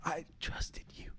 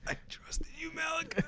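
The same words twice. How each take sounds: First: Hushed, slow, breathy whisper. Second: Squeaky, very high mock voice; mock high squeak. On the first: Retold or imitated. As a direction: whisper it slowly, betrayed. Betrayed friend voiced dramatically. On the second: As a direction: pitch it way up, mock-hurt. Betrayed friend, squeaky mock.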